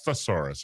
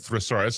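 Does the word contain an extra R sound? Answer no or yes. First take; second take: no; yes. First: The word is said without an extra R sound. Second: The word is said with an extra R sound. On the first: The speaker calls it right. "it's thesaurus, isn't it?" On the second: The speaker calls it wrong. "I think I say it incorrectly. I say thesaurus"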